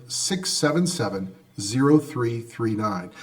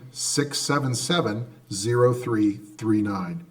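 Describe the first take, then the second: No difference in how they are said.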